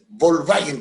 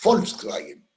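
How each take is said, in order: First: The word begins with a B sound. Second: The word begins with an F sound. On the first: This is how people in Chile say it. The speaker calls it wrong. "no es Volkswagen, como dice la gente en Chile" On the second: This is how it is said in German. The speaker calls it right. "en alemán la B corta o V se pronuncia como nuestra F"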